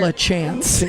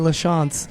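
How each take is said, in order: First: The name is said the English way. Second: The name is said closer to French. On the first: This is how people commonly call him. The speaker calls it wrong. "he is known as LaChance in Toronto" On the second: This tries to honour the family's own pronunciation. The speaker calls it right. "I always try to say Lachance, which I know is not it's still not great, but it's a lot better"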